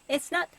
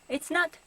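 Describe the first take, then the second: The two takes are said the same way.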